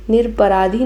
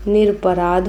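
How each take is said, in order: First: निरपराधी with an added long ee at the end; wrong form. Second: निरपराध ending on "aadh", no final ee; correct form. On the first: Teacher shows students the faulty word, निरपराधी ending in long ee. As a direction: end निरपराधी on a clear "dhee". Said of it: "निरपराधी नहीं होता है". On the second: Teacher gives students the correct word, निरपराध without final ee. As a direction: close निरपराध on the dh consonant. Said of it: "निरपराध होता है". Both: Shown as a demonstration.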